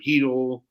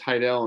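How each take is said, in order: First: The first syllable sounds like 'hee'. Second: The first syllable sounds like 'high'. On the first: This is how callers get the name wrong. The speaker calls it wrong. "they screw it up sometimes on the phone" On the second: This is how the name is really said. The speaker calls it right. "my last name is uh, it's Heidel"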